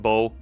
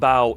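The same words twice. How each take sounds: First: The word sounds unlike the bow of a ship. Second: The word sounds like the bow of a ship. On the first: The speaker calls it right. "Because bow sounds better" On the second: The speaker calls it wrong. "That just sounds wrong"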